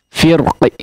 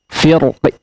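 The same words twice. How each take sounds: Both takes have the same delivery.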